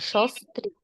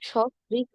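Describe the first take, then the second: First: The first syllable starts with an 's' sound. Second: The first syllable starts with an 'sh' sound. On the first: The speaker calls it right. "শো না বলে বলবেন স" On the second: The speaker calls it wrong. "এটা কিন্তু সস্ত্রীক নয়"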